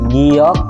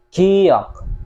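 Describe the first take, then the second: First: The first sound is a clear g. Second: The first sound falls between k and g. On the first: The speaker calls it wrong. "hindi rin siya giyok" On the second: The speaker calls it right. "ang tamang pronunciation is ki-gi"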